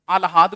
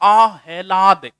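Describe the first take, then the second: First: The l sound comes before the h. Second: The h sound comes before the l. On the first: The speaker calls it wrong. "आलहाद को नहीं" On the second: The speaker calls it right.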